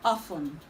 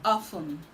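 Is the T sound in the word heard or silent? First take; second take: silent; silent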